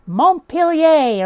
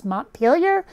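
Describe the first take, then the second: First: "Montpelier" as Mon-peel-yay, drawn out, louder and higher; French pronunciation. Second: "Montpelier" as Mont-peel-yer; Anglicized. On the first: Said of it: "like it's French". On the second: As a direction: say "Montpelier" the American way, ending in yer. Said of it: "nothing in Vermont gets pronounced like it's French". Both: Shown as a demonstration.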